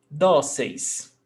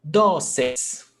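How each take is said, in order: Both takes have the same delivery.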